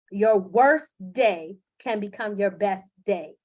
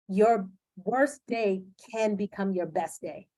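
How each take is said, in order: First: Slow, louder, stressing worst; slow, firm, louder recall of the mantra; emphatic repeat. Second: Said in the usual way. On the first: Retold or imitated. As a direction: drive it home like a mantra. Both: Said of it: "I heard Tony saying in my head".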